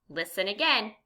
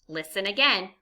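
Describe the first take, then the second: Both takes have the same delivery.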